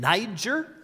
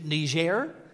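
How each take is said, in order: First: The name has an English pronunciation. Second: The name has a French pronunciation.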